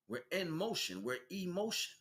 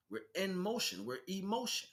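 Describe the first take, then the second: No difference in how they are said.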